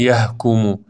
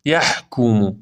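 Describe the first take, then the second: First: یحکمو with ح softened to ه; no throat friction in یحکمو; wrong plain h. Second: یحکمو with a long rasped ح; breathy throat friction in یحکمو; correct husky ح. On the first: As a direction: say یحکمو as a light "yahkumu". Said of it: "پس نخونید یحکمو". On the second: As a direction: clear the throat lightly on ح in یحکمو. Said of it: "ها بحه داره". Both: Shown as a demonstration.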